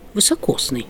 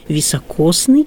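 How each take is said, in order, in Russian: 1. Слово начинается с твёрдого 'vy'. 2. Слово начинается с мягкого 'vi'. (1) "в просторечии, в народной речи можно услышать слово «высокосный»... это я ударение сделала специально" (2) "должны говорить на литературном"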